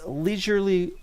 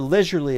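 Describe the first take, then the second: First: It is said in an American accent. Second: It is said in a British accent.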